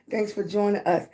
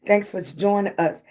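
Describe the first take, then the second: No difference in how they are said.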